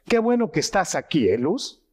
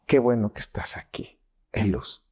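First: Higher, brighter welcoming tone with the name said kindly; warm welcome. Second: Lower, dull and fading, no warmth at all; cold, indifferent. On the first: Doctor showing prosody, warmly welcoming Luz. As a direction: greet her like you're truly glad she came. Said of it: "La manera como hablamos se llama prosodia". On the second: Doctor showing prosody, coldly greeting Luz. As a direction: say the welcome like you couldn't care less. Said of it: "No es lo mismo que te diga". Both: Shown as a demonstration.

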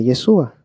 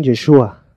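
First: Yeshua as "ye-SU-a", plain S. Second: Yeshua with a hushed SH, "ye-SHU-a"; SH pronunciation. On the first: Retold or imitated. Teacher imitating the one who differs, S for SH. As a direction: say Yeshua without the SH sound. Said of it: "pero él dice Yeshua". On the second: Shown as a demonstration. Teacher showing how everyone else says it, SH pronunciation. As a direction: say Yeshua with a clear SH. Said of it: "todos los demás dicen Yeshua".

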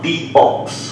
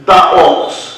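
First: "the" said as "dee" before the vowel of "ox"; correct pronunciation. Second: "the" said as "da" before "ox", the wrong way; wrong pronunciation. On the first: Teacher models correct "dee" before vowel "ox". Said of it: "मैं यहाँ पर इसका उच्चारण करूंगा". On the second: Teacher shows students the wrong "da" before "ox". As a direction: demo the mistake: "the" as "da" in "the ox". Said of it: "the ox बोल दिया तो ये सेंटेंस मेरा गलत". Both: Shown as a demonstration.

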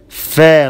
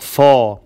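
First: Fa said thin and light. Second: Fa said thick and heavy; heavy fa, the wrong way. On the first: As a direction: keep the Fa light and unemphatic. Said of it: "The fa is light". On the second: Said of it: "not fa". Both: Shown as a demonstration.

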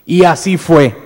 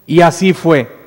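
Both takes have the same delivery.

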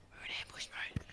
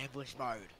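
First: Hushed stealth whisper; voiceless, secretive announcement. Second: Said in the usual way. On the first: Pretend. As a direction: whisper it as if lying in ambush. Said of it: "You have to whisper".

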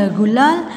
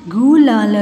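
First: Said in the usual way. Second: गुलाल stretched part by part; syllable by syllable. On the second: Shown as a demonstration. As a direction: sound out गुलाल. (गुलाल को तोड़-तोड़ कर) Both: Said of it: "फिर ये सारे बोलने".

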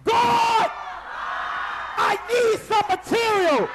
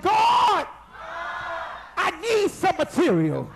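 First: Full-voiced shout, higher and louder; shouting like you mean it. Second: Shouted cry to God, voice up high; loud plea. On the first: Told to mean it, preacher gives an all-out shout. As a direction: cry out to God with everything. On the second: Preacher leading the church, a loud shouted plea. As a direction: call out to God for what you need. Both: Shown as a demonstration. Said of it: "Now you better say it like you mean it".

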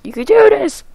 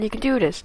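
First: High, squeaky self-encouragement; high cheering. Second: Said in the usual way. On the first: Real, not acted. Gamer urging hobo man across the rope, high cheering. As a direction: push it way up high to urge yourself on.

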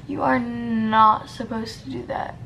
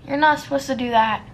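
First: "are" leaned on with a rise; stress on are. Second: Quick self-scolding. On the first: Repeating the rule to herself with stress on "are". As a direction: hit "are" hard, like a firm correction. Repeating the self-scolding, emphasised. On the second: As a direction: rattle off the telling-off at herself. Scolding herself over a makeup mistake. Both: Real, not acted.

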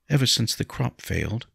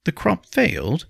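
First: Said in the usual way. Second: High, surprised echo; startled question. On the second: A narrator's reading. Nobleman asking about the failed crop, startled. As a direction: throw it back as a startled question. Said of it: "Henry asked".

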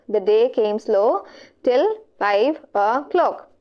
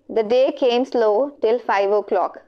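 First: Slow, spaced-out reading of the line; slow reread. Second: Said in the usual way. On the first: Real, not acted. Teacher rereading an answer option to students, slowly. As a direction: read it slowly, pausing between phrases.

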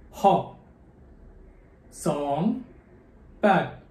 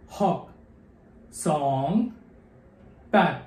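Both takes have the same delivery.

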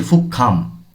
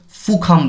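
First: ফুকখাম with a held, tense doubled kkh; doubled consonant. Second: ফুখাম with a single light kh, no doubling; wrong way. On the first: Teacher showing the right ফুকখাম with a doubled kkh. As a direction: hold the kk in ফুকখাম with a slight tremor. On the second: Teacher showing the wrong ফুখাম with a single kh. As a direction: say ফুখাম with one short kh sound. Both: Shown as a demonstration. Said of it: "এভাবে একটু কম্পিত করতে হবে".

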